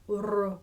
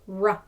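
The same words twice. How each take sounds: First: The R is a light, soft trill. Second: The R is a rough, hard sound. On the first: The speaker calls it right. "You always want that r" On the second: The speaker calls it wrong. "It's not a rough sound"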